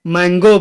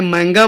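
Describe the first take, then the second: First: مینگو ending in "o"; English-style mango. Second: مانگا ending in a long "aa"; Arabic-style mango. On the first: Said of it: "مینگو بولو". (مینگو، آخر میں "او" کی آواز) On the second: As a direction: say مانگا with an open "gaa" ending. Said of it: "چاہے مانگا بولو". (مانگا، آخر میں لمبا "آ") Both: Shown as a demonstration.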